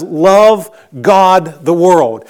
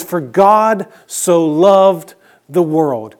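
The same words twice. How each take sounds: First: "Love" put first and landed, slow and firm; stress on Love. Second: Slow, measured quote of the verse; slow reading. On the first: Pastor showing the Greek word order puts "Love" first, slowly stressed. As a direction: open with "Love", said slow and weighty before "God the world". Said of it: "when you wanted to emphasize a word". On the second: Pastor reading the familiar verse order slowly to the congregation. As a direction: read the verse slowly, word by word. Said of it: "It actually says". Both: Shown as a demonstration.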